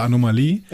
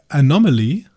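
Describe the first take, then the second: First: "Anomalie" said the German way, stressed on the final LIE; "Anomalie" in German, ending on a stressed -lie; German pronunciation. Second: "Anomaly" said the English way, stressed on NOM; "Anomaly" in English, with a light final -ly; English pronunciation. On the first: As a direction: say "Anomalie" as a German word, long stressed ee at the end. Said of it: "auf Deutsch Anomalie". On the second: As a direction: say "Anomaly" as an English word, stress on the second syllable. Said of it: "auf Englisch Anomaly". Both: Shown as a demonstration.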